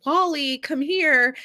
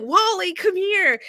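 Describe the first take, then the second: First: A raised call for the cat; light call for the cat. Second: Urgent call for the cat. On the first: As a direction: call him out of the woods. Calling her lost cat. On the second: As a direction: call out into the woods. Calling her cat again. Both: Retold or imitated.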